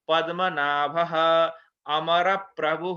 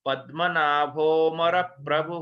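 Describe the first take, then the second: First: The words are split and the a is sounded. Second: The words run together and the a is dropped. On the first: The text is read word by word. "यदा पदच्छेदः भवति तदा" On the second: The text is recited as continuous verse. "संहिता पाठ समये उच्चारणं न विधीयते"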